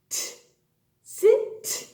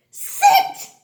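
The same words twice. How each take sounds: First: "sit" with a separated final t; sounding out. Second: "sit" in a very high, loud burst; triumphant blending. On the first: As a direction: sound out "sit", leaving a gap before the t. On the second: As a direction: shout out "sit" high as one word. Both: Shown as a demonstration. Sounds out word, then blends.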